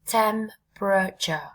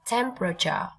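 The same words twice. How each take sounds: First: "temperature" slowly, broken into three syllables; tách âm tiết. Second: Said in the usual way. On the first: Shown as a demonstration. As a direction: draw out "temperature" syllable by syllable, pausing between them. (đọc chậm "temperature", tách rõ ba âm tiết) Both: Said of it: "Có ba âm tiết thôi các bạn nha".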